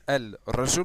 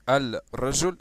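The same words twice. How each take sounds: Both takes have the same delivery.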